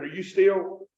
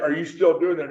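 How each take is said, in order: First: "still" with a drawn country vowel, near "steel"; "still" slipping into rural dialect; backsliding STILL. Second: Said in the usual way. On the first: Shown as a demonstration. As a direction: stretch "still" into a Kentucky "stee-ul". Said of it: "I'm backsliding a little bit". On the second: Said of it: "I mean, like".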